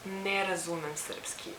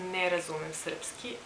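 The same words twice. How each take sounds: The two takes are said the same way.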